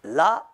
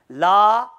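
First: "La" said short, without lengthening; short vowel. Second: "La" held long and louder; prolonged vowel. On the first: Teacher showing the positive meaning, "La" kept short. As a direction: keep the vowel in "La" brief. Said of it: "positive meaning". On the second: Teacher showing the negative meaning, "La" drawn out long. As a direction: stretch out the a in "La". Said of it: "negative meaning". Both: Shown as a demonstration.

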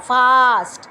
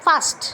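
First: ফাস্ট with a loose f; wrong fast. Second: ফাস্ট with a crisp f; right fast. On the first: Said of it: "এটা কিন্তু উচ্চারণ না". (ভুল উচ্চারণে ফাস্ট) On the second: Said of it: "ফাস্টে কিন্তু". (সঠিক উচ্চারণে ফাস্ট) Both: Shown as a demonstration.

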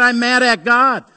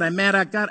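First: Louder, higher quote of the angry woman; woman's angry retort, voiced loud; retold outburst. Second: Said in the usual way. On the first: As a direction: fling out her words like she's still angry. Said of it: "She said". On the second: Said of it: "That's what she said".

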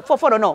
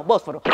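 First: "Fósforo" with an f, the wrong way. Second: "Bósforo" with a clear b, low and firm; right Bósforo. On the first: Correcting her own slip, "Fósforo" with f. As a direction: say "Fósforo" with f to show the mistake. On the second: Correcting her own slip, "Bósforo" with b. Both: Shown as a demonstration.

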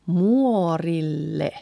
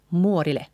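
First: Slow muorille with long LL; full double L. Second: Quick muorille with a single short L; short, light L in muorille; second L left out. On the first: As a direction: draw out muorille, holding the L. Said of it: "We actually leave out". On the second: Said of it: "the second L". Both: Shown as a demonstration.

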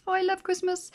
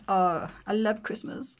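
First: Squealed delight. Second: Said in the usual way. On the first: Real, not acted. Repeat squealed high.

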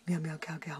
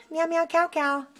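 First: Soft cooing. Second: High cooing. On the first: Softer repeat of cat's name. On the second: Higher take of cat's name. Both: Real, not acted.

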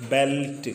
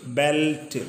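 The two takes are said the same way.

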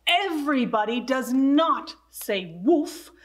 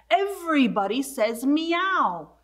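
First: Not leaned on hard; everybody does NOT say woof, with NOT stressed. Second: A firm, falling correction ending on meow; stress on meow. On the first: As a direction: correct the dog firmly, hitting not. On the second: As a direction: meow weighted, falling to a close. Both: Acted. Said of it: "No, no, no".

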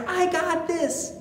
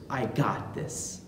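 First: Higher, cocky boast; overconfident Peter. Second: Low, much softer, quoted back with doubt; wry echo. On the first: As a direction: brag it lightly like a sure disciple. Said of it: "He basically says to our Lord". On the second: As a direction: hand his boast back quietly. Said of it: "what does Jesus say in response to Saint Peter's". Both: Retold or imitated.

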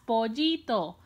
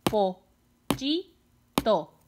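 First: Said in the usual way. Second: "Pollito" in three separate beats, long pauses between; very slow "Pollito", each syllable on its own. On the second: Shown as a demonstration. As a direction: break "Pollito" into po, lli, to. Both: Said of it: "¿Cuántas sílabas tiene esta palabra?".

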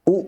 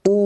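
First: Short "উ", not drawn out; short vowel. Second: Long drawn-out "উ"; long vowel. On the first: Teacher contrasting vowels for learners, brief "উ". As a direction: cut the "উ" short. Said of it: "প্রথমটা টান হচ্ছে না". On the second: Teacher contrasting vowels for learners, lengthened "উ". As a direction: stretch the "উ" out. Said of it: "দ্বিতীয়টা টান হচ্ছে". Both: Shown as a demonstration.

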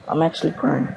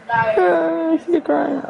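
First: Said in the usual way. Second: High-pitched mock wail; hammed-up crying, far higher than usual; fake crying. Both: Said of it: "I'm just kidding, man".

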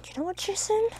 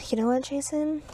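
First: "Jason" pitched higher, rising at the end; mock indignant. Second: Said in the usual way.

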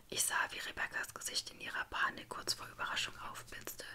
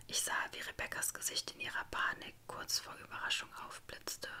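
Both takes have the same delivery.

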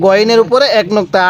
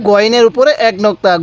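The two takes are said the same way.

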